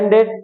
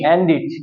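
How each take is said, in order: First: The final syllable sounds like 'ed'. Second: The final syllable sounds like 'id'. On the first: This is the usual way people say it. "আমরা সাধারণত বলি এন্ডেড" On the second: This is the way to say it from now on. "এখন থেকে আমরা কি বলবো এন্ডিড"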